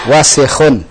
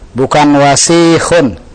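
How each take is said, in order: First: The second vowel is kept short. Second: The second vowel is drawn out long. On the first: The speaker calls it right. "semuanya pendek" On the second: The speaker calls it wrong. "Juga jangan dipanjangkan sinnya. Bukan wasikhun"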